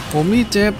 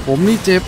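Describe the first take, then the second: No difference in how they are said.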